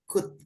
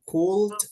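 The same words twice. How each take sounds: First: The O and L are silent. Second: The O and L are sounded out. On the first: The speaker calls it right. "O-nya nggak usah dibaca, L-nya nggak usah dibaca" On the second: The speaker calls it wrong. "bukan could"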